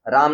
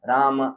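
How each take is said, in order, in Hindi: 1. यह रोज़मर्रा की हिंदी के तरीके से बोला गया है। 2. यह शास्त्रीय संस्कृत के तरीके से बोला गया है। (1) "राम नहीं" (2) "ऐसा आना चाहिए"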